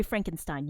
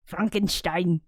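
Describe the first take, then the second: First: Said in the usual way. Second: German-style "Frankenstein", with "sh" before the t and an open "ah"; attempted German accent. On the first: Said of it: "How do you say that". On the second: Shown as a demonstration. Speaker unsure how to say Frankenstein in German, attempted German accent. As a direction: try "Frankenstein" as a German would, "Frahn-ken-shtein". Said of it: "in German accent".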